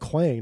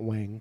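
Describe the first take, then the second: First: The word begins with a kw sound. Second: The word begins with a plain w sound. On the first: The speaker calls it right. "he's saying quang" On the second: The speaker calls it wrong. "not wang"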